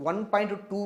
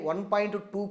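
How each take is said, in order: Both takes have the same delivery.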